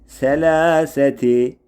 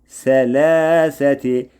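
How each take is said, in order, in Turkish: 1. Kelime ti hecesiyle biter. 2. Kelime ti hecesiyle biter.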